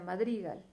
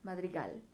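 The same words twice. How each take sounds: First: The stress is on the second syllable. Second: The stress is on the last syllable. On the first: "Si le pongo más fuerza en dri" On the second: "Si le pongo fuerza en gal"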